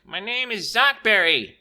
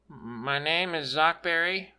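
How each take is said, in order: First: Higher, louder, slow proud shout. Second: Speaking up a bit; a little louder. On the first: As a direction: shout the name proudly, slowly. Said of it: "Stick proudly shouted it". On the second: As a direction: say the name a touch louder. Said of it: "The kid spoke a little louder". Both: A narrator's reading.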